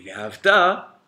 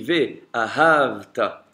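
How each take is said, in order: First: The stress falls on the last syllable. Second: The stress falls before the last syllable. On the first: You will love. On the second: And you have loved.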